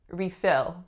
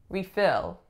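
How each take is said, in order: First: The stress is on the second syllable. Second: The same.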